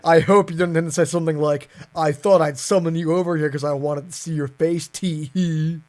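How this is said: It is read in a serious voice.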